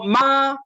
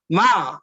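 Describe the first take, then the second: First: The pitch stays high and level. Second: The pitch falls sharply from high to low. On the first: It means mother. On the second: It means to scold.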